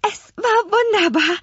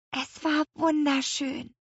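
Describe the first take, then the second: First: Very high, breathless delight; gushing. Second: Soft, slow, high hushed delight; whispering. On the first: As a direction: gush with rapture, voice soaring. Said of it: "schwärmte Lea". (begeistert geschwärmt) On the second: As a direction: whisper it slowly in quiet wonder. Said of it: "flüsterte Lea". (selig geflüstert) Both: A narrator's reading.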